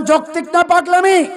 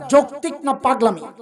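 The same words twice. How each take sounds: First: Raised, high-pitched rallying question; preacher demanding a louder answer. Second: Said in the usual way. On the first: Shown as a demonstration. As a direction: throw it out loud to rouse the crowd. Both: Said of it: "আরো জোরে বলেন".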